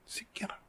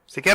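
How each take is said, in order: First: The word is whispered softly. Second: The word is yelled loudly.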